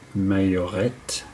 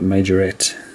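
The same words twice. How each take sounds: First: The word is pronounced the French way. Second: The word is pronounced the English way. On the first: This is how it is said in Europe. "I've heard it being probably properly pronounced in Europe" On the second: This is how it is said in English-speaking countries. "over here in Australia and every other Anglophonic country"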